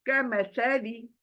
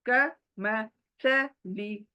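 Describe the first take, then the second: First: The phrase is said quickly. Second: The phrase is said slowly. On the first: "फिर बाद में इसको फास्ट करना है, जल्दी करना है।" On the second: "एक बार स्लोली पढ़ा"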